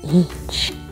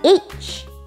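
First: It is said softly. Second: It is said loudly.

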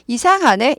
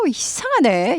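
First: It is said flatly, without feeling. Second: It is said with strong, surprised feeling. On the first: The speaker calls it wrong. "이게 아니라" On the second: The speaker calls it right. "이렇게 되는 거예요"

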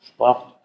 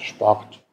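First: The r is a soft voiced sound. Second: The same.

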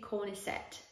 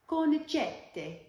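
First: It is read with an English-style pronunciation. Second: It is said with an Italian pronunciation. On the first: The speaker calls it wrong. "that's how I read the word" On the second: The speaker calls it right. "if you speak Italian, you would know that it's actually pronounced Cornicette"

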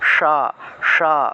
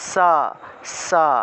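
First: The s sound is made with tongue curled back. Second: The s sound is made against the teeth. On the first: "জিহ্বা উল্টে স উচ্চারণ করতে হবে" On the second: "এই যে বাতাসটা এসে দাঁতের মধ্যে ধাক্কা লাগে"

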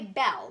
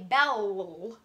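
First: The L sound is said once. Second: The L sound is said twice. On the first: The speaker calls it right. "You just say bell" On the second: The speaker calls it wrong. "You don't say bell, bell"

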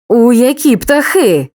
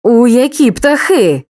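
First: The voice sounds threatening and menacing. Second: The same.

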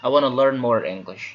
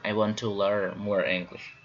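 First: The words run together and are reduced. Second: Each word is said fully and separately. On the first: The speaker calls it right. "when you want to speak fast" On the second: The speaker calls it wrong. "we don't say the word"

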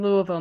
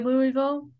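First: It is pronounced the way locals say it. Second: It is pronounced the way newcomers say it. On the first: The speaker has since been corrected. The speaker calls it right. "I say Louisville now" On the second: The speaker had not yet been corrected. The speaker calls it wrong. "I used to say Louisville... that's the wrong way to say it"

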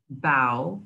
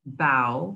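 First: The vowel sounds like the one in 'cow'. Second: The same.

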